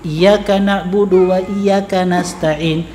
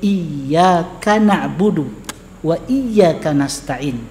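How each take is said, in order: First: The y sound in iyyaka is short and single. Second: The y sound in iyyaka is held doubled. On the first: Only your sun do we worship and ask for help. The speaker calls it wrong. "hanya kepada mataharimu ya Allah kami beribadah" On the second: Only You do we worship and ask for help. The speaker calls it right. "dibaca dengan tasydid"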